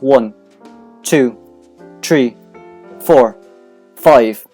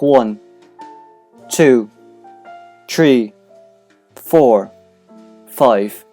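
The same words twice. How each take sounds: First: The counting is said quickly. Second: The counting is said slowly.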